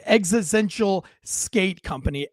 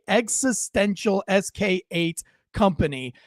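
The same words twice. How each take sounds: First: Said in the usual way. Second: "S K eight" read letter by letter, slowly; spelling out the brand name. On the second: Shown as a demonstration. Naming the kid's skate brand, spelling out "S K eight".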